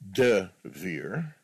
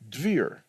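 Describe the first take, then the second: First: A full vowel follows the D. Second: No vowel follows the D. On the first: "Not Devir" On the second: "where the D and the V sound get blended"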